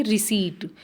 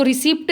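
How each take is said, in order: First: "रिसीट" with a silent p, ri-SEET; correct pronunciation. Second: "रिसिप्ट" said with the p sounded, as a wrong form; wrong pronunciation shown. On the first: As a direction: say "रिसीट" cleanly, no p sound. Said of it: "P silent होता है, क्या बोलेंगे". (सही उच्चारण "रिसीट", P silent) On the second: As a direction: demo the mistake "रिसिप्ट", p pronounced. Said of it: "इसको रिसिप्ट नहीं बोलेंगे, P silent होता है". (गलत उच्चारण "रिसिप्ट", पी बोलकर) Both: Shown as a demonstration.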